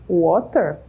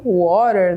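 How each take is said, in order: First: Said in the usual way. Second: "water" with the T softened into a quick tapped R. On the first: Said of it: "O T tem um som de R". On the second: Shown as a demonstration. Teacher showing learners fast-speech English, "water" with T as a tapped R. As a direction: say "water" with an R-like tap for the T. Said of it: "O T tem um som de R quando a gente fala bem rápido".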